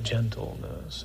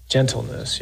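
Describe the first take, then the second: First: Gentleness breathed slowly in a whisper; soft gentle whisper. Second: Said in the usual way. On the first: Shown as a demonstration. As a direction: say Gentleness as gently as you can. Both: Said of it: "Real manly word".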